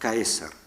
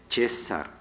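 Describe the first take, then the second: First: It starts with a hard k and a diphthong. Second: It starts with a soft consonant and plain vowel. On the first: This is the classical Roman pronunciation. "Los romanos de época clásica debieron pronunciar Caesar" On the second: This is the late Latin pronunciation. "la C se había palatalizado y pronunciaban César"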